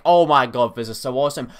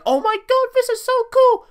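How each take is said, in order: First: Said in the usual way. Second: Squeaky high excited voice; way up high, thrilled; high-pitched. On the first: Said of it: "But now that we have". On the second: Retold or imitated. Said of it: "like, high-pitched back then".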